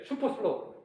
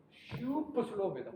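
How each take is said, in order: First: Said in the usual way. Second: 슈퍼 stretched out long and softer; drawn-out super slow. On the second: Shown as a demonstration. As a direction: drag out the first syllable of 슈퍼 슬로우. Stretches the name of slow speed.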